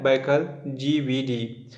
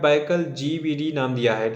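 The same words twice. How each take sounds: First: Baikal GVD said very slowly, each syllable drawn out for students to note; slow, spelled-out repeat. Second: Said in the usual way. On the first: Shown as a demonstration. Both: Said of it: "क्या नाम दिया है?".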